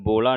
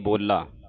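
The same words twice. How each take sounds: First: The l sound is short and single. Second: The l sound is doubled and held long. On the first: The speaker calls it wrong. "ਇਹਨੂੰ ਬੋਲਾ ਨਹੀਂ ਕਹਿ ਦੇਣਾ" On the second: The speaker calls it right. "ਬੋਲਾ ਅਧਕ ਲਾ ਕੇ ਬੋਲਣਾ ਹੈ"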